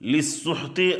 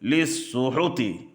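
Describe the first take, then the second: First: The h runs straight into the t. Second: A u vowel follows the h sound.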